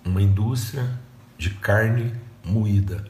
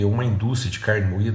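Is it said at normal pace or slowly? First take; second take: slowly; normal pace. First: It is said very slowly. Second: It is said at normal pace.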